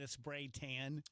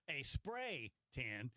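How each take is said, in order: First: The stress falls on the word tan. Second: The stress falls on the word spray. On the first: The speaker calls it wrong. "I emphasize the wrong word there" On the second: The speaker calls it right. "as opposed to a real tan"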